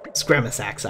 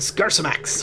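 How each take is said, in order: First: The word's sounds come in their usual order. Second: The word's sounds are jumbled out of order. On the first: The speaker calls it right. "I know" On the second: The speaker calls it wrong. "I like mispronouncing it, it's funny"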